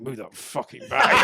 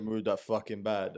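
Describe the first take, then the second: First: Slow, loud, annoyed mutter; muttered snap. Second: Said in the usual way. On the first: Retold or imitated. Tired commuter snapping at a bag hog, muttered. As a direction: grumble it at the stranger, half laughing. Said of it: "I caught myself going". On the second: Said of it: "You said".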